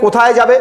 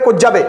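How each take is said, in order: First: The first word is said in full. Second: The first word is clipped short, said quickly.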